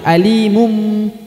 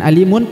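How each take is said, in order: First: The word ends with a held, nasal m sound. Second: The word ends with an n sound. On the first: The speaker calls it right. "tapi alimum ya, karena harus ditahan dan ditekan, didengungkan" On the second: The speaker calls it wrong. "bukan alimun"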